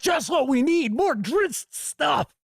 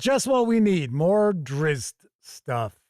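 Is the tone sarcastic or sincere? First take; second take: sincere; sarcastic. First: It is said in a sincere tone. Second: It is said in a sarcastic tone.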